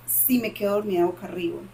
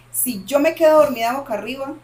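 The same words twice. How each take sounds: First: Said in the usual way. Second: "quedo" hit louder and higher, rising at the end; emphatic repeat. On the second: Real, not acted. Repeating to a friend that sleeping face up is the trigger, with stress on "quedo". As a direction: stress "quedo" and lift the whole phrase. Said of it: "repeats for emphasis".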